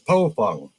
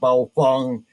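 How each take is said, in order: First: The name begins with a P sound. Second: The name begins with a B sound. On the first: The speaker calls it right. "It is Pofung. That's P O F U N G" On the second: The speaker calls it wrong. "It is not Baofeng"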